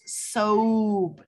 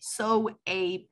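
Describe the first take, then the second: First: It has one syllable with a long O. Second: It has two syllables, sounding both vowels. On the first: The speaker calls it right. "we only say the first vowel, the O, and we give it that long O sound" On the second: The speaker calls it wrong. "not so ape"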